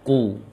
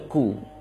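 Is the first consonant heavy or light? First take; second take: heavy; light. First: The first consonant is heavy, deep in the throat. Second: The first consonant is light, like a plain k. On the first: The speaker calls it right. "Qaf yang dhammah" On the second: The speaker calls it wrong. "jangan dibaca ku"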